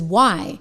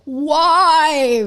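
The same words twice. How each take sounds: First: It is said calmly and flatly. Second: It is said loudly, with alarm.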